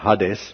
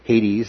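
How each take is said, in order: First: It is said with the original Greek pronunciation. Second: It is said with the usual English pronunciation. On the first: "actually more literally pronounced, you know" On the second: "Hades is our anglicized pronunciation"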